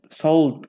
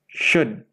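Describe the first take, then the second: First: The word is said with an L sound. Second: The word is said without an L sound. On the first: The speaker calls it wrong. "santri melafalkannya sold, sold gitu ya" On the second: The speaker calls it right. "Nggak ada L-nya di sana, nggak ada bunyi L ya"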